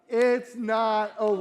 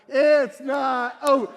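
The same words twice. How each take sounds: First: It is said at normal volume. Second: It is said loudly.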